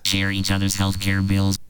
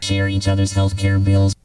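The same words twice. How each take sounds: First: The voice is passed through a vocoder effect. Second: The voice is turned into a synthesizer tone. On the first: "That's vocoder" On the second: "That's synthesizer voice"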